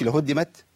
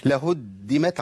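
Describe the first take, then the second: First: "لهدمت" with a single, unheld dal; lightened dal. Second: "لهدمت" with a firmly held double dal; doubled dal. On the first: Teacher showing the lost shadda, lightened dal. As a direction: slip through the dal of "لهدمت" without doubling. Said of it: "كده حب خففت الدال". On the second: Teacher modelling the shadda, doubled dal. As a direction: lean on the dal in "لهدمت" before releasing. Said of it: "عندي دال مشددة". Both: Shown as a demonstration.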